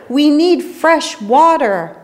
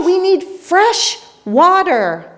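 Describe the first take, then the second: First: A touch of a desperate plea; slow, mild plea for water; cried out. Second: High, slow desperate yell on need; yelled back. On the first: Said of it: "the Spaniards cried out". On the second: Spanish sailors yelling back to Peruvians, high desperate yell. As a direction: shout it back, afraid of being misunderstood. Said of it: "yelled back". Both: A narrator's reading.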